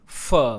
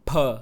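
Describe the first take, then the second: First: The sound is made with lip against teeth. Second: The sound is made by pressing both lips together. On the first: The speaker calls it wrong. "न कि फ" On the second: The speaker calls it right. "दोनों होंठों को जोड़ के बोला जाता है"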